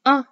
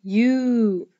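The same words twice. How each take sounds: First: A quick, isolated "uh"; short U sound. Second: U held long as "yoo"; long U sound. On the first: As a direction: say the short U as a brief "uh". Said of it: "say the short sound of the letter U". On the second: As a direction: draw U out into a long, clear "yoo". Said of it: "say the long sound of the letter U". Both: Shown as a demonstration.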